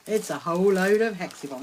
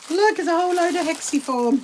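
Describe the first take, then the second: First: Said in the usual way. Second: Pitched up with real delight; excited. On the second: Real, not acted. Showing viewers a big bunch of fabric, excited. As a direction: show it off like a treasure. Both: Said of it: "very exciting".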